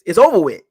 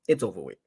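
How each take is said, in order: First: It is said in a put-on Mopar Buck voice. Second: It is said in his normal voice.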